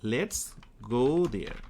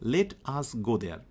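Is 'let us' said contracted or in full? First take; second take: contracted; full. First: Let and us merge into one syllable, lets. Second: Let and us are said as separate words. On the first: "এই কথাটাকেই আরেকভাবে বলা হয় সেটা হচ্ছে লেটস" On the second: "খেয়াল করো লেট আস গো দেয়ার"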